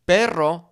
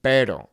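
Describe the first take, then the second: First: "perro" with a trilled R; rolled R demo. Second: "pero" with one light tap; failed rolled R; single tap R. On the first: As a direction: roll the R in "perro". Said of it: "We wanna say something like". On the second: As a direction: say "pero" without a roll. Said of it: "We just say". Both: Shown as a demonstration.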